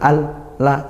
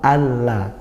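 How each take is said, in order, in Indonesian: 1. Dua suku kata itu dipisahkan oleh jeda. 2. Dua suku kata itu menyambung tanpa jeda. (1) "Enggak bisa kalau dibaca idgham seperti apa? ... harus jeda, tidak" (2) "alla gitu"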